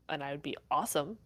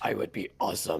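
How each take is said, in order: First: It is said in her natural voice. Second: It is said in a put-on deep voice.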